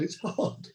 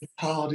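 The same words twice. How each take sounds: First: Breathed softly, almost no voice; whispered repeat. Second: Said in the usual way. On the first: Real, not acted. To the others about acting, whispered. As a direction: drop it to a whisper.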